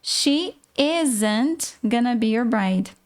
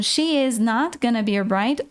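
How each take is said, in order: First: "isn't" slow, is and not joined; slow demo of the short form "isn't"; contracted isn't. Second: "is not" said as two separate words; teacher's full form "is not"; uncontracted is not. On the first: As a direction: stretch out "isn't" as one joined word. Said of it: "É a junção dos dois". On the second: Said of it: "escolher a forma que ficar melhor". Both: Shown as a demonstration.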